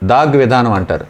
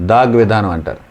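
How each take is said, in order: Both takes have the same delivery.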